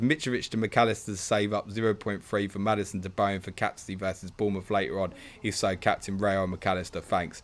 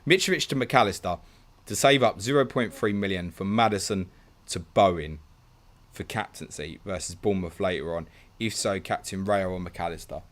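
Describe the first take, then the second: First: It is read flatly, without interest. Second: It is read attentively, with interest.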